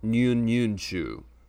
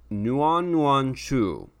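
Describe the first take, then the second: First: The name is said with Cantonese pronunciation. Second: The name is said with Mandarin pronunciation. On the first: "or Cantonese" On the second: "depending on if you're saying it in Mandarin"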